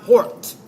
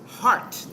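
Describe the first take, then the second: First: The vowel is a rounded 'aw' sound. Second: The vowel is an open 'ah' sound. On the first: The speaker calls it wrong. "not hort" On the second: The speaker calls it right. "Heart, not hort"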